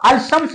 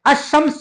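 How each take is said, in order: First: अलशम्स said with a clear ल, as al-shams; wrong pronunciation with L. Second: अशम्स with a silent ल and a doubled श, as ash-shams; correct sun-letter pronunciation. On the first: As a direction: pronounce the ल in अलशम्स. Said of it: "गलत कहलाता है". (अलशम्स में ल साफ़ बोलें) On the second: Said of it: "अशम्स कहते हैं". (अशम्स में ल चुप, श दोहरा) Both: Shown as a demonstration.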